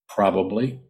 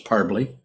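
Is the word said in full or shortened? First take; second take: full; shortened. First: The word is said in full, three syllables. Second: The word is squeezed into two short syllables. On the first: The speaker calls it right. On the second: The speaker calls it wrong.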